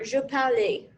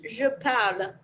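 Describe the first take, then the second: First: An extra vowel sound follows the final L. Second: The word ends cleanly on the L sound. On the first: The speaker calls it wrong. "This is not je parle. So don't don't pronounce it like that" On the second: The speaker calls it right. "This is je parle"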